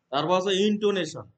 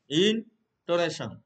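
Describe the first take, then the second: First: Said in the usual way. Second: ইনটোনেশন said slowly, each syllable spelled out for students; slow clear term. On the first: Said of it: "teacher introduces the term". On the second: Shown as a demonstration. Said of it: "teacher repeats the term slowly". (ইনটোনেশন ধীরে ধীরে, প্রতিটি অক্ষর স্পষ্ট করে)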